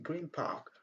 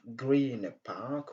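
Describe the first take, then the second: First: The end of green becomes a soft m. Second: The end of green stays a clear n. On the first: "les sons nés se transforment en petit M" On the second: "Au lieu de dire"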